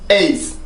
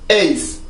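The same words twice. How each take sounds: First: It is said as a single syllable. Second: It is said as a single syllable.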